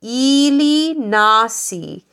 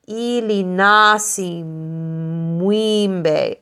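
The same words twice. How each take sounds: First: Said in the usual way. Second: Ili nasi mwimbe, slowly, leaning on the na of nasi; slow, with weight on the na in nasi; stress on na. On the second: Shown as a demonstration. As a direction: hit the na of nasi, spoken slowly. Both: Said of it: "put the emphasis on the na".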